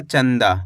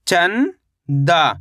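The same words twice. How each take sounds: First: Said in the usual way. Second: चंदा as long rising "chan", pause, "daa"; split syllables. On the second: Shown as a demonstration. Teacher breaking down चंदा for learners, split syllables. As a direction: stretch चंदा into two separate syllables. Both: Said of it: "तो मिलके बन जाएगा".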